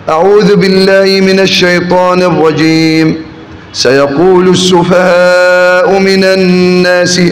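There is a pause after the first phrase. "الوقف على الاستعاذة"

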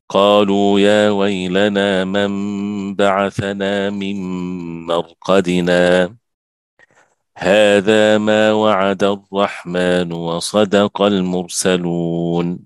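A full stop with a breath after مرقدنا.

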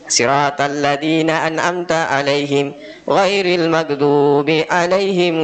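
There are short pauses between the phrases. The speaker calls it right.

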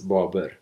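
The name is said with an Uzbek accent. "Uzbek way is Babur"

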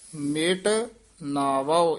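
The two words are said separately. The speaker calls it right. "ਇਹ ਵੱਖਰਾ ਪਾਠ ਹੀ ਬੋਲਣਾ"

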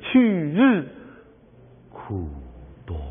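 It holds a short break right after 日. The speaker calls it right. "在这儿要顿一下"

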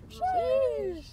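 It is said in a high pitch.

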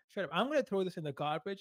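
It is said in a teasing, playful tone. The threat is a joke and not meant to hurt. The speaker calls it right. "You always have to be playful"

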